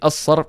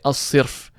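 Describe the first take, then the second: First: The vowel after the s is a. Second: The vowel after the s is i. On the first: The speaker calls it right. "I say as-sarf" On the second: The speaker calls it wrong. "I don't say as-sirf"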